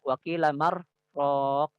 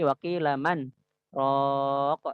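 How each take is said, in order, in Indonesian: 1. Huruf n menyatu ke huruf r tanpa jeda. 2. Sebuah henti singkat memisahkan man dari raq. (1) "maka dia nggak boleh baca waqila marraq. Nggak bisa" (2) "dibaca izhar"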